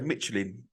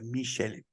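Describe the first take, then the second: First: It is pronounced the plain English way. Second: It is pronounced the French way. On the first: "I'd say Michelin, they don't say it like that" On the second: "They say Michelin"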